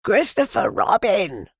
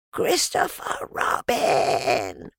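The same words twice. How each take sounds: First: High, loud call of a name. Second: Slow, drawn-out stage whisper; loud whisper. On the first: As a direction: call out to someone far below. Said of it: "he called down to you again". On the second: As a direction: hiss the name down slowly, meant to carry. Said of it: "in a loud whisper". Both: A narrator's reading.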